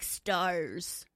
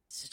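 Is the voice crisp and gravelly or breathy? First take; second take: crisp; breathy. First: It is said crisp and gravelly. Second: It is said as a breathy sigh.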